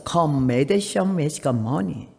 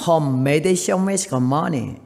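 First: Very slow, deliberate broken English; 또박또박 느린 콩글리시; Korean-accented English again. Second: Very slow, deliberate broken English; 느릿느릿한 콩글리시; Korean-accented English. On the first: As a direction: drag out each word like a proud old lady. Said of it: "또 했어". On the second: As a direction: spell out each English word slowly. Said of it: "한마디만 할 줄 아는 영어를 했어요". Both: Retold or imitated.

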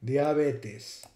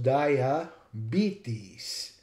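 First: Diabetes said letter by letter as "dee-ah-BEH-tess"; Latin pronunciation. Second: Diabetes said slowly as "dye-a-BEE-teez"; English pronunciation. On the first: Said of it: "Just follow the rules of the alphabet". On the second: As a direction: spell out diabetes in sound, slowly, with long English vowels. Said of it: "And it's pronounced". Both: Shown as a demonstration.

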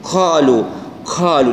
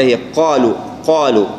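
First: "قالوا" with a long puff of air after q; whispered-release qaf. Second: "قالوا" with a clean q, no puff; qaf without hams. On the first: Teacher showing the mistake, airy q. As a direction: aspirate the start of "قالوا". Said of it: "همسها". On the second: Teacher correcting the airiness, clean q. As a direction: release "قالوا" straight into dark aa. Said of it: "ما يكون فيها همس كثير". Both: Shown as a demonstration.

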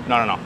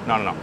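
No difference in how they are said.

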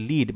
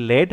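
First: লিড with the long vowel of "need"; long-ee pronunciation. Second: লেড with the short vowel of "bed"; short-e pronunciation. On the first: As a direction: pronounce লিড as "leed", long ee. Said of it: "একটা হচ্ছে লিড মানে direction". (লিড, দীর্ঘ ই ধ্বনি দিয়ে উচ্চারণ) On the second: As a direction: pronounce লেড as "led", short e. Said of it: "একটা হচ্ছে লেড মানে মেটাল". (লেড, হ্রস্ব এ-কার দিয়ে উচ্চারণ) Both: Shown as a demonstration.

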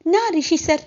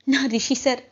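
First: Overjoyed repeat. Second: Said in the usual way. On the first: Acted. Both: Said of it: "అని చెప్పి అలాగే చూస్తూ".

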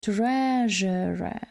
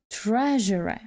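First: "Treasure" drawn out, stressed on the first syllable; first-syllable stress, slow. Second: "Treasure" joined up, first syllable stressed; first-syllable stress, quicker. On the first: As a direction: stretch "Treasure" out for learners. (повільно "Treasure", наголос на першому складі) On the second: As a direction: model "Treasure" carefully, less drawn out. (швидше "Treasure", наголос на першому складі) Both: Shown as a demonstration. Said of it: "Наголос на першому складі".

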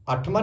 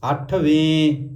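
First: ਅੱਠਵਾਂ with an aa ending; final -aan ending. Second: ਅੱਠਵੇਂ slow, long e ending; final -ven ending. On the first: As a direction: end ਅੱਠਵਾਂ on aa instead of e. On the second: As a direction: draw out the last vowel of ਅੱਠਵੇਂ. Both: Shown as a demonstration. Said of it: "ਅੱਠਵਾਂ ਨਹੀਂ ਬੋਲਣਾ".

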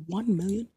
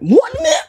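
First: Said in the usual way. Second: High, loud disbelieving squeak; shocked disbelief. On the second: Real, not acted. Streamer reading his own net worth, squeaking in disbelief. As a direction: jump up in pitch at the number.

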